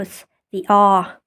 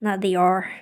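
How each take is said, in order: First: "R" as an open "ah", no r sound; British R. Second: "R" ending in a clear American r; sounded R. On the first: Showing the British way, "R" said as "ah". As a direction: drop the r in "R", British style. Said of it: "In British accent, for example". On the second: Contrasting with British, "R" with its r pronounced. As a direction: close "R" on a full r sound. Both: Shown as a demonstration.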